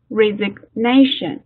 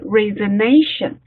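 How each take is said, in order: First: The g sound is lightly pronounced. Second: The g sound is left out. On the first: The speaker calls it right. "就是带一下，嘴型在那儿带一下" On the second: The speaker calls it wrong. "如果你说不读这个音的话"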